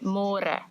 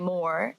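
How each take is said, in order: First: It is said with a rolled r. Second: It sounds like the English word more. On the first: The speaker calls it right. "say more" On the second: The speaker calls it wrong. "So don't say more"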